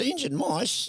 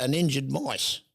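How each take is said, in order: First: 1 incredulous. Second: Said in the usual way. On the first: Retold or imitated. Owner repeats the RSPCA claim.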